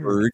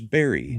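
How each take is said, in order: First: The word ends with a hard g sound. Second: The word ends with an ee sound. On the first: "the spelling of Berg" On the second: "is pronounced Berry in Swedish"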